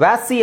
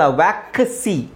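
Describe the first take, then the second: First: ವ್ಯಾಸಿ said without the k, as the student did; wrong pronunciation. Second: ವ್ಯಾಕ್ಸಿ with a clear k before the s; correct pronunciation. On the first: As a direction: mimic the mistake ವ್ಯಾಸಿ. (ತಪ್ಪಾದ ಉಚ್ಚಾರ ವ್ಯಾಸಿ) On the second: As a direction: say ವ್ಯಾಕ್ಸಿ with the k sounded. (ಸರಿಯಾದ ಉಚ್ಚಾರ ವ್ಯಾಕ್ಸಿ) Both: Shown as a demonstration. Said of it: "ವ್ಯಾಸಿ ಅಲ್ಲ".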